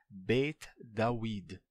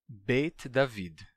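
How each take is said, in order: First: David is said with a w sound. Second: David is said with a v sound. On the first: This is the pronunciation of that ancient period. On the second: This is the later pronunciation.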